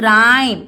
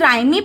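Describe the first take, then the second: First: It is one syllable with no final vowel. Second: It ends with an added final ee vowel. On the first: The speaker calls it right. "इसका pronunciation क्या होगा?" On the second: The speaker calls it wrong. "क्या हम इसे राइमी पढ़ेंगे? ... No"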